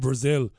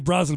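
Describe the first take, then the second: First: The name sounds like the country Brazil. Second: The name does not sound like the country. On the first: The speaker calls it wrong. "we don't say Brazil" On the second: The speaker calls it right. "We say Brazel"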